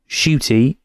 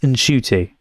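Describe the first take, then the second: First: The name starts without any N sound. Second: The name starts with an N sound. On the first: The speaker calls it wrong. "it's not Shooty" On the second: The speaker calls it right. "So the N is pronounced"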